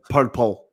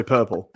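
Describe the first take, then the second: First: Purple said the Scottish way; Scottish accent. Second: Said in the usual way. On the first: Shown as a demonstration. Podcaster showing his one Scottish word, Scottish accent. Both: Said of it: "is how Scottish people say purple".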